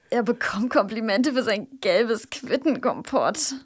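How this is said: It is said in a disgusted tone.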